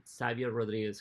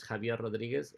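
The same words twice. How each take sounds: First: Xavier said as "SAV-yer", an English s at the start; Xavier pronounced "SAV-yer" the English way; Xavier with an s sound. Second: Javier said "ha-VYER", Spanish h sound at the start. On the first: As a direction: start Xavier with a clear s, anglicized. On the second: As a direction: open Javier with a breathy Spanish h. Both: Shown as a demonstration. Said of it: "Javier or Xavier Rodriguez".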